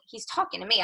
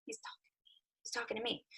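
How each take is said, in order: First: Said in the usual way. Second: Hushed, breathless whisper to herself; awed whispered disbelief. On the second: Retold or imitated. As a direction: whisper it so nobody hears. Looking around at seminar.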